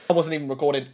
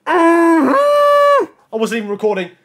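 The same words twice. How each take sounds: First: Low, soft, deflated realisation; stunned dismay. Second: High, slow, drawn-out wail; anguished outburst. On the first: Gamer realising the recording was off, stunned dismay. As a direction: say it small and sinking. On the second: Gamer who missed recording his big moment, anguished outburst. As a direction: wail it out, stretching the words in dismay. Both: Real, not acted.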